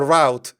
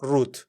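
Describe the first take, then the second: First: The word is said with an American accent. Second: The word is said without an American accent.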